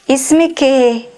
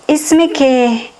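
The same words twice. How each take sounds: No difference in how they are said.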